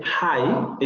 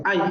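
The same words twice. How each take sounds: First: Hi with the h sound; standard hi. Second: I with no h at the start; dropped h. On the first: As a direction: say hi with a clear breathy h. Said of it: "en lugar de decir". (hi con h aspirada) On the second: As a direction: drop the h, just the vowel of I. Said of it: "van a decir". (I sin h inicial) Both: Shown as a demonstration.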